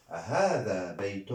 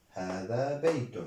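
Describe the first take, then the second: First: هذا بيت asked as a question, rising; teacher modelling هذا بيت as a question; questioning tune. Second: Said in the usual way. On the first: Shown as a demonstration. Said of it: "Et une particule interrogative". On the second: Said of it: "نعم".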